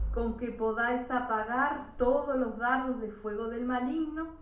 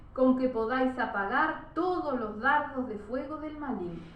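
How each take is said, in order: No difference in how they are said.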